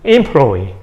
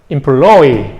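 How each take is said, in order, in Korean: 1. 강세는 첫 번째 음절에 있어요. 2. 강세는 가운데 음절에 있어요. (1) "강세가 앞으로 옮겨갈 겁니다. 그래서 employee 이렇게 될 겁니다" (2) "강세가 이렇게 옮겨가고"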